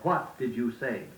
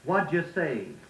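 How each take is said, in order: First: Each word is said carefully in full. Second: The words are run together carelessly. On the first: The speaker calls it right. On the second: The speaker calls it wrong.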